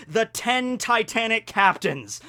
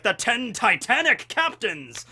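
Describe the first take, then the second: First: Slow, slightly raised announcement; dramatic name reveal. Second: Slow, higher cartoon villain proclamation; Blackbeard. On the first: Shown as a demonstration. Fan reveals the villain crew's alliterative name, slow and dramatic. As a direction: stretch out the crew's grand title. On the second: Fan mimics the cartoon villain naming his crew, slow hammy proclamation. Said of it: "and he's like".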